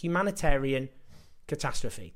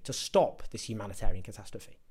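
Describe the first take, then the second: First: Slow sarcastic echo. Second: Lower, with stop leaned on in mock disbelief; scornful repeat. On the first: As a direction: drag out Humanitarian catastrophe slowly, each word weighed with scorn. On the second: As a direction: echo the phrase, stressing stop with contempt. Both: Shown as a demonstration.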